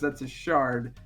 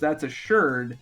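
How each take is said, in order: First: The last word has the vowel of 'car'. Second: The last word has the vowel of 'her'. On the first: The speaker is not an archaeologist. "who is not" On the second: The speaker is an archaeologist. "who is an archaeologist"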